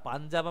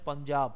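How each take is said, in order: First: The first syllable has an open 'aa' vowel. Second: The first syllable has a rounded 'o' vowel. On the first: This is how people commonly say it. The speaker calls it wrong. "পাঞ্জাব আমরা উচ্চারণ করি" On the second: The name comes from 'five waters'. The speaker calls it right. "কিন্তু উচ্চারণ পঞ্জাব"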